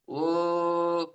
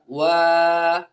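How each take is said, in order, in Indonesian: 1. Vokalnya teredam, dengan rahang hampir tertutup. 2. Vokalnya terbuka, dengan rahang terbuka lebar. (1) "Tidak boleh begini" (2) "Terus buka"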